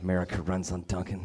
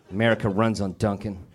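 First: Softer, lower mocking mutter of "America runs on Dunkin'"; scornful low "America runs on Dunkin'"; muttered slogan. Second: Said in the usual way. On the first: Shown as a demonstration. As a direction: sneer "America runs on Dunkin'" under the breath. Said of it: "slogan repeated mockingly". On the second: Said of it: "slogan repeated".

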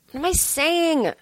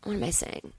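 First: High, drawn-out self-questioning; slow, high-pitched bafflement; exasperated outburst. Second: Hushed, lost aside; quiet muttering. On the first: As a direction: stretch it out, pitched up. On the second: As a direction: mutter it to yourself, much softer. Mutters to self, then repeats louder. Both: Real, not acted.

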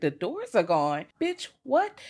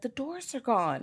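First: Slow question that shoots much higher on what; stunned, echoing it back; disbelieving dispatcher. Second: Put-on higher, slow and softer, a lost little boy; small boy. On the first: Retold or imitated. Dispatcher repeats the boy's words in disbelief. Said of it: "They're like". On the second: Little boy tells the dispatcher, soft and higher. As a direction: say it like a frightened child. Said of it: "the little boy's like".

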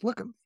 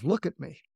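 First: "Look at me." pitched much higher, pressing; insistent repeat. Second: Said in the usual way. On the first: Retold or imitated. Dean insisting the crying student look up, higher and urgent. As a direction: lift it high and insist, second time.

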